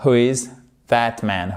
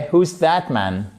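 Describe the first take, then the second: First: "who is" as two separate words; full "who is that man?" without contraction; uncontracted form. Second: "Who's" as one syllable, "hooz"; contracted spoken "Who's that man?"; contracted form. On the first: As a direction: keep "is" distinct after "who". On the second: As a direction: run who and is together into "Who's". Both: Shown as a demonstration. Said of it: "On pourrait même faire une forme contractée".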